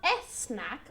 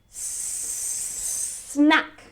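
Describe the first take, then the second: First: An extra vowel comes before the s. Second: The word starts straight on a hissing s. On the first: The speaker calls it wrong. "It's not a snack" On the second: The speaker calls it right. "It's snack, like a snake"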